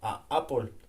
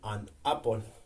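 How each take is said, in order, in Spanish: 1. No hay sonido n; las vocales se separan. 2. Un sonido n une el artículo con apple. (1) "sonaría muy cortado" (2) "sonaría más adecuado"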